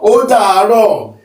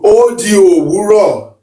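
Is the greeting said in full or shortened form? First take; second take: shortened; full. First: The phrase is contracted into three short syllables. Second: The phrase is said with every syllable in full. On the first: This is how people say it in modern speech. "it's like an abbreviated speech" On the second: It sounds old-fashioned but shows the root meaning. "It's going to sound old school"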